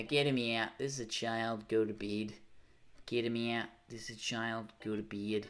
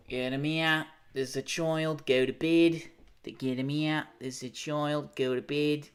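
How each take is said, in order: First: Understated attempt at an Aussie accent. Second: Higher-pitched mock Aussie scolding; broad Aussie put-on, ordering someone off; Aussie accent. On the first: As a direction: try the Australian accent at normal pitch. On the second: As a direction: attempt an Australian accent, pitched up and insistent. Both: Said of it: "Is that a good Aussie accent?".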